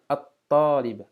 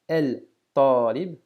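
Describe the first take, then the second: First: The L disappears and the t is doubled. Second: The article's L is sounded before the t. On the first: The speaker calls it right. "mais bien" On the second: The speaker calls it wrong. "ne se prononcera pas"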